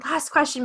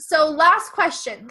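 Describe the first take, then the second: First: Said in the usual way. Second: Kata "last" ditekan keras dan pelan; stress on last. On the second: Shown as a demonstration. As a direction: drag out "last" slowly and louder.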